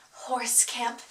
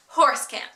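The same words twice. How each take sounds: First: Much softer after a beat; mock-dramatic soft title reveal; hushed reveal. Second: Said in the usual way. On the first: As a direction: drop it low and soft for the reveal.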